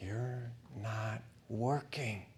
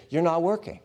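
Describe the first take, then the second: First: "You're not working" said slow and much softer, falling on "working"; a dull, heavy murmur of despair, drawn out; bitter brooding. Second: "You're not working" flung at God, higher and louder, with "not" rising; indignant protest with "not" pushed up; accusing complaint. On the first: Brooding thought after the burial. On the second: Voicing a complaint against God. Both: Retold or imitated.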